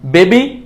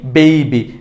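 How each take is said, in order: First: Rising বেবি as "be-bi"; plain e in বেবি; wrong pronunciation. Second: Falling বেবি as "bei-bi"; correct pronunciation. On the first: Teacher contrasting for learners, rising বেবি without a glide. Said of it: "ভুলটা হচ্ছে". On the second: Teacher contrasting for learners, falling বেবি with ei. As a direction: glide e to i in বেবি. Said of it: "সঠিকটা হচ্ছে". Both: Shown as a demonstration.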